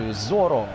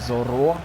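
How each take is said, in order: First: The stress is on the first syllable. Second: The stress is on the last syllable. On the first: The speaker calls it wrong. "Тед Лассо говорить Зоро" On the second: The speaker calls it right. "саме наприкінці наголос"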